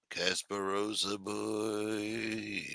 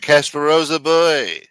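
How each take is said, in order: First: Murmured name echo. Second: Announcing name loudly. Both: Acted.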